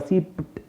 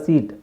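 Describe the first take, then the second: First: The word ends with a p before t. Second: The word ends with no p sound. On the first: The speaker calls it wrong. "ಪಿ ಮತ್ತು ಟಿ ಒಟ್ಟಿಗೆ" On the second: The speaker calls it right. "ಇಲ್ಲೂ ಅಷ್ಟೇ"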